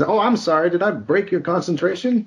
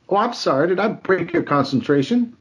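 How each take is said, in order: First: High sarcastic movie-line voice; menacing mock apology, raised pitch; Pulp Fiction quote. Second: High sarcastic movie-villain line; Pulp Fiction quote. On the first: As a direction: fake sorry with a threat under it. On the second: Retold or imitated. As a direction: menace behind a sweet apology. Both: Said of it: "it was a line from".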